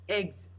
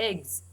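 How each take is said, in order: Both takes have the same delivery.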